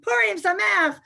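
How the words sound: It is said with happy excitement.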